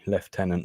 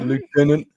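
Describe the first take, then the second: First: The word is said the posh British way. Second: The word is said the American way. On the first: The speaker calls it right. "they've got to be push. It's got to be lieutenant" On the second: The speaker calls it wrong. "not lieutenant"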